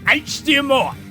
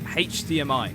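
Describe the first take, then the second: First: It is said in an exaggerated put-on voice. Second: It is said in an ordinary everyday voice.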